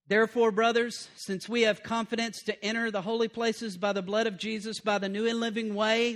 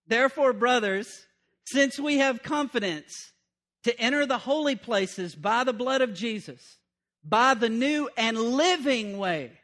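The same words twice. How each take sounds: First: Said in the usual way. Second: Slower, weightier reread with each phrase pressed; preacher rereading the verse for the congregation, slow and emphatic. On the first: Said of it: "listen to that". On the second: Shown as a demonstration. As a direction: reread it so every phrase lands. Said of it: "That's why I had to reread it".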